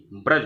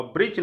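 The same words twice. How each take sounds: First: ब्रज said as braj with a short a, no i; correct form shown. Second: ब्रिज said with a short i, as the wrong spelling; wrong form shown. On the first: Teacher gives students the correct word, ब्रज as braj. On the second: Teacher shows students the wrong spelling, saying ब्रिज. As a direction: say ब्रिज as brij, the form to avoid. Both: Shown as a demonstration. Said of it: "ब्रिज नहीं ब्रज".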